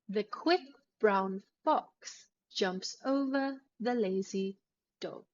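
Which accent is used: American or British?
British. It is said in a deeper, quieter British accent. "you will have a deeper voice and a quieter sound"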